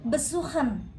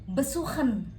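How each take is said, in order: No difference in how they are said.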